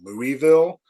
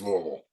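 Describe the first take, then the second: First: The first part is said like the name Louis. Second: The name is clipped into a short local form. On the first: This follows the name the city came from. "the correct pronunciation is more than likely probably Louisville because it's King Louis" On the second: This is how the people who live there say it. "like the people that live there, it's Louisville"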